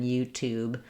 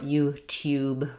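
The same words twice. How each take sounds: First: The second syllable has plain oo without y. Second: The second syllable has a y glide before oo. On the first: This is the American way. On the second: This is the British way.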